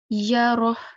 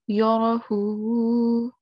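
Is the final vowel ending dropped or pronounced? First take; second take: dropped; pronounced. First: The word stops on a breathy final 'h'. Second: The word ends with a full 'hu' syllable. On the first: "we will say Yarah" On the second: "instead of saying Yarahu"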